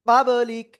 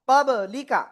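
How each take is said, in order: First: The word ends on a bare consonant. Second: The word ends with a final vowel. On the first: The reader stops at this word. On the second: The reading continues without stopping.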